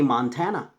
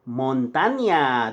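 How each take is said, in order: First: The middle consonant is a plain n sound. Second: The middle consonant is a 'ny' sound. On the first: The speaker calls it wrong. "You say Montana, but it's not Montana" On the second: The speaker calls it right. "it's Montaña"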